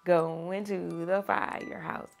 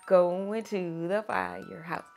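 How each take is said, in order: Both takes have the same delivery.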